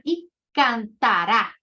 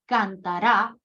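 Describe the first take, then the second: First: Cantará slow and louder, final RÁ punched; stress on final syllable. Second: Cantará said as cantara, stress on the middle syllable TA; penultimate stress. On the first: Teacher contrasting the future tense for students, slow final stress. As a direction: drag out cantará and hit the last syllable RÁ. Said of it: "futuro imperfecto del indicativo". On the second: Teacher showing the subjunctive to students, stress on TA. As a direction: say cantará with the weight on TA, last syllable light. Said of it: "que es un imperfecto subjuntivo". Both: Shown as a demonstration.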